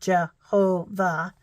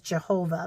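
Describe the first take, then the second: First: The word is broken into three separate syllables. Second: The word is said smoothly as one unit.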